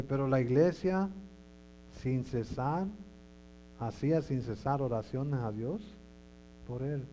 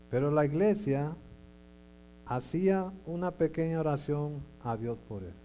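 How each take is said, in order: First: "sin cesar" recalcado como la versión correcta; lectura corregida. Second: "Pero la iglesia hacía una pequeña oración" leído más fuerte, como lectura errónea; "pequeña oración" dicho con énfasis, como error que luego se corrige; versión equivocada. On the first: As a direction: subraya "sin cesar" con firmeza. (la versión buena, acentuando "sin cesar") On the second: (lectura equivocada a propósito, algo más fuerte) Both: Shown as a demonstration.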